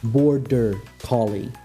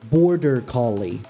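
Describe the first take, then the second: First: Each sound is articulated slowly and distinctly. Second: It is said casually at normal speed.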